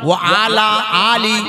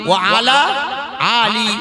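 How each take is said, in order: No difference in how they are said.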